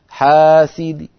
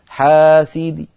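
The two takes are said the same way.

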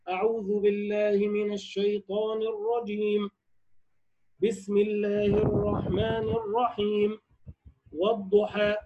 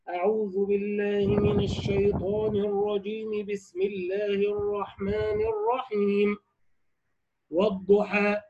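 First: Pauses come after both opening phrases. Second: A pause comes after the second phrase only. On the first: "قطع الجميع" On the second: "وصل الاستعاذة بالبسملة والوقف على البسملة"

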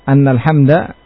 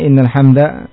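First: The first word begins with an 'a' vowel. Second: The first word begins with an 'i' vowel.

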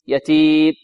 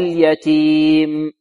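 First: The final m is cut off abruptly. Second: The final m is held with a moderate hum. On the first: The speaker calls it wrong. "البعض يقرأ هكذا" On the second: The speaker calls it right. "لا، اليتيم"

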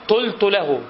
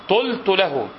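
The two takes are said the same way.

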